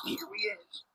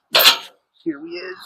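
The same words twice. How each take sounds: First: Playful whispered echo. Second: Said in the usual way. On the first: Pretend. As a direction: breathe it out as a whisper. Whispered repeat of line.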